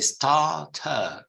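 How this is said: The R after the vowel is silent. "we make it a silent R"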